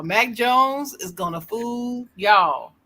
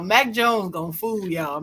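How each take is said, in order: First: "Mac Jones", "fool" and "y'all" each stretched out, higher; slow emphatic repeat. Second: Said in the usual way. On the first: Real, not acted. Warning the other hosts about Mac Jones, slow and emphatic. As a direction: draw out each word, leaning on "fool" and "y'all".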